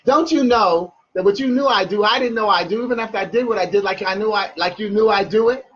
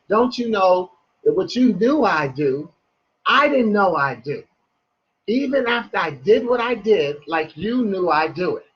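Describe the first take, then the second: First: It is said fast. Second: It is said slowly.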